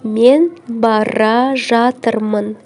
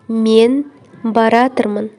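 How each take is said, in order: First: The verb is said as two full words. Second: The verb is merged into one shortened word.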